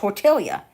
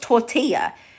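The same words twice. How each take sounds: First: The double L sounds like an L. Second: The double L sounds like a Y. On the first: The speaker calls it wrong. "So I call it tortilla" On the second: The speaker calls it right. "I know it's tortilla. It's the L's are to equal a Y"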